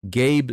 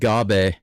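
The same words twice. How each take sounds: First: The name is said with English pronunciation. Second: The name is said with Japanese-style pronunciation. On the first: The speaker calls it right. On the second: The speaker calls it wrong.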